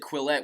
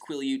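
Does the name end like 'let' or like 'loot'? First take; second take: let; loot. First: The name ends in a 'let' sound. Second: The name ends in a 'loot' sound. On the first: This is how the speaker misread it. The speaker calls it wrong. "I always said Quillette when I was reading the books" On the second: This is the actual pronunciation. The speaker calls it right. "it's Quileute, so I'm happy that I finally got that down"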